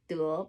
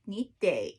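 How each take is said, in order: First: The character is read with its usual tone. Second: The character is read with a changed tone. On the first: This is the ordinary word. "Otherwise it's the word 得" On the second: Someone must do something. "a 破音字 It's a change of um, tonality"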